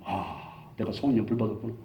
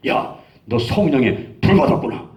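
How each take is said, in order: First: Low, soft musing to himself; retold quiet realization. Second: Slow, drawn-out pronouncement with weight on 불; retold amazed declaration. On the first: Preacher echoing friend's words to himself, quiet realization. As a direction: let it sink in, hushed and low. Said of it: "그 말이 지금도 쟁쟁하게". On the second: Friend grasping his hand after prayer, amazed declaration. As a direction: declare it slowly, as a revelation. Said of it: "한참 보더니만 내 손을 딱 잡더니만".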